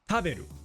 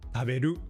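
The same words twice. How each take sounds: First: The high pitch is on the first syllable. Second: The high pitch is on the last syllable. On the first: "if we were at the start" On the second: "or at the end"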